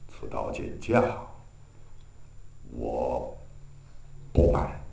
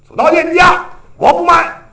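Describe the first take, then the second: First: It is said in a subdued, deflated way. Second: It is said fiercely and domineeringly. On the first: The hero is down and out but keeps his dignity. The speaker calls it right. "就没有那么豪气冲天" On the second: The hero sounds like the bully instead. The speaker calls it wrong. "那俩掉个儿，他是牛二的"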